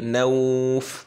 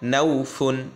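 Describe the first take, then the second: First: The word ends on a bare f. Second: The word ends with a vowel and n. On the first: The reader stops at this word. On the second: The reader continues without stopping.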